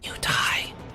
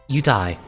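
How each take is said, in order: First: It is said softly and gently. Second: It is said loudly and bluntly.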